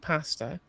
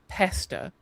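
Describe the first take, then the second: First: The first vowel is an a sound. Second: The first vowel is an eh sound. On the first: This is how the British actually say it. The speaker calls it right. "We say pasta" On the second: This is how others claim the British say it. The speaker calls it wrong. "convinced that British people pronounce it pesta when we don't"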